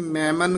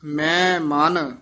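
First: ਮੈਂ ਮਨ run together quickly as one word; wrong joined reading. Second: ਮੈਂ held, then ਮਨ set apart; measured ਮੈਂ ਮਨ in two separate words; slight halt. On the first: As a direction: rattle off ਮੈਂ ਮਨ with no gap. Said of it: "ਇਹ ਮੈਂ ਮਨ ਇਕੱਠਾ ਨਹੀਂ ਕਹਿ ਦੇਣਾ". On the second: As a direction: put a small catch between ਮੈਂ and ਮਨ. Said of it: "ਇੱਥੇ ਠਮਕ ਲਾ ਦੇਣੀ ਹੈ". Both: Shown as a demonstration.

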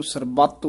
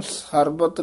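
First: ਸਰਬੱਤ with a tight, doubled ਤ; ਸਰਬੱਤ firmly closed on the adhak; correct pronunciation. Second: ਸਰਬਤ with a single, untightened ਤ; ਸਰਬਤ without the adhak; wrong pronunciation. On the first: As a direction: hold the ਤ in ਸਰਬੱਤ. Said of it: "ਸਰਬੱਤ ਉਚਾਰਨ ਕਰਨਾ ਹੈ". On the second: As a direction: say ਸਰਬਤ loosely, no doubled consonant. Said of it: "ਨਹੀਂ ਕਹਿ ਦੇਣਾ". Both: Shown as a demonstration.

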